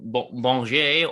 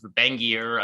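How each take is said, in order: First: The name is pronounced the French way. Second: The name is pronounced the American way. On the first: "go full French" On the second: "Americanized kind of"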